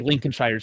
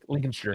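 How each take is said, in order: First: Every letter of the name is sounded out. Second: The name is shortened, with some letters dropped. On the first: The speaker calls it wrong. "you don't say Lincolnshire" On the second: The speaker calls it right. "Say like Lincolnshire"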